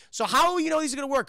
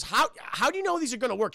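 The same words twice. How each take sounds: First: Higher, fast corrected quote; mock exact quote. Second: Said in the usual way. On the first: Streamer correcting the doctor's actual line, quicker and higher. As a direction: rattle it off as the real line. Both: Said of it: "She actually says".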